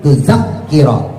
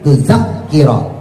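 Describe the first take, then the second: First: The middle consonant is doubled and held. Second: The middle consonant is doubled and held.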